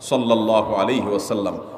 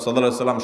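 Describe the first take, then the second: First: It is said slowly and with warmth. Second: It is rattled off quickly and carelessly. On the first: It is said out of love. The speaker calls it right. "মুহাব্বতের সাথে" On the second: It is said only to raise the count. The speaker calls it wrong. "তাড়াহুড়া করে পড়বেন না ... সংখ্যা বাড়ানোর জন্য হুলস্থুল করে পড়লেন না"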